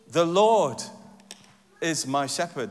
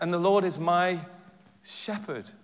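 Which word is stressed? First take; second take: Lord; shepherd. First: The stress is on "Lord". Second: The stress is on "shepherd".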